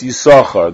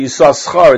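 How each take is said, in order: First: Only one s sound in the name is pronounced. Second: Both s sounds in the name are pronounced. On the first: The speaker calls it right. "One is silent, and one is not. ... it's Yisachar" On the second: The speaker calls it wrong. "You don't say Yisachar"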